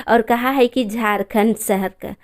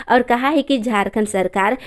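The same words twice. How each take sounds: The two takes are said the same way.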